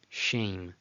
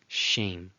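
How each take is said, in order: The two takes are said the same way.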